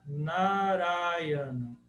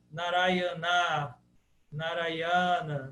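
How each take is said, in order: First: Narayana very slowly, stressed on Ra. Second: Narayana with the last A dragged out slowly; wrong overlong Narayana. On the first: Teacher showing the stressed syllable Ra. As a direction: lean on Ra in Narayana. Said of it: "a tônica está no Ra". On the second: Teacher showing how the end must not sound. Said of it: "não pode ser nada assim". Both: Shown as a demonstration.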